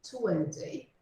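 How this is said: It is said in a British English accent. "no inglês britânico vai ficar"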